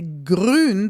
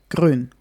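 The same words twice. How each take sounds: First: The R is rolled with several taps. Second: The R is a single quick tap. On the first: "will not actually say grün" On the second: "we probably will just say it once like r, like grün"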